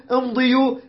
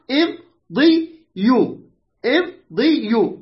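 First: Said in the usual way. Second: امضيوا slow, split im - di - yu; syllable by syllable. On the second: Shown as a demonstration. Teacher showing the original form of the verb, slowly syllabified. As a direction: stretch امضيوا into three separate syllables. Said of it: "هي قلنا أصلها".

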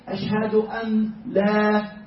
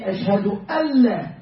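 First: Ashhadu an la with the noon clearly said, slow; wrong reading. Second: Ashhadu alla with the noon merged into a doubled lam; correct reading. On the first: Teacher to class, showing the wrong pronunciation. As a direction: pronounce the noon of an separately. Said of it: "we should not say". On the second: Teacher to class, showing the right pronunciation. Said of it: "We should say". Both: Shown as a demonstration.

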